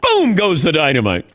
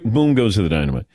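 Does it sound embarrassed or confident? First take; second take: confident; embarrassed. First: It is said in a bold, confident way. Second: It is said in a shy, embarrassed way.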